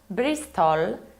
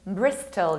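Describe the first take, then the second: First: The ending is said fully and clearly. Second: The ending is reduced and weak. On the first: The speaker calls it wrong. "this is not Bristol" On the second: The speaker calls it right. "You need to reduce the ending"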